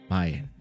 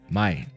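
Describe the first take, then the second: First: The word is said in a calm, neutral way. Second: The word is said in an angry way. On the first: It means buy. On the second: It means sell.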